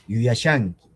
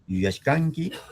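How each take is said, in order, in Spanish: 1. El sufijo se dice sin sonido k. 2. El sufijo se dice con sonido k. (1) "leo en mi variedad" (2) "chanca lo leerán"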